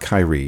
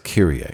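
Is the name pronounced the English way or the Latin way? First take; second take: English; Latin. First: The name is pronounced in an English way. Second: The name is pronounced in a Latin way. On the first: The speaker calls it wrong. "It's not Kyrie" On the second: The speaker calls it right. "The proper way to pronounce that word is Kyrie. It's Latin"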